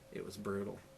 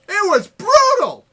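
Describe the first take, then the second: First: It is said in a normal speaking voice. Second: It is said in a silly put-on voice.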